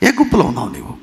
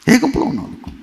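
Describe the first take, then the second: First: Said in the usual way. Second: The same question again, pitched much higher; pressing repeat. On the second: Real, not acted. Preacher presses the congregation again with a sharply higher question. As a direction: push the question up high with గుంపులో lifted.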